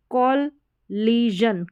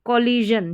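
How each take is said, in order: First: कॉलिजन very slowly, kol-lee-zhun; syllable-by-syllable कॉलिजन. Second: Said in the usual way. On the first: Shown as a demonstration. Teacher breaking up a long spelling, कॉलिजन in slow syllables. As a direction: break कॉलिजन into separate pieces. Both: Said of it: "बड़ी spellings को किस तरीके से break".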